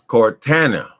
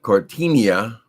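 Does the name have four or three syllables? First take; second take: three; four. First: The name is said with three syllables. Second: The name is said with four syllables. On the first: The speaker calls it right. "her name is Cortana" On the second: The speaker calls it wrong. "Her name is not Cortinia"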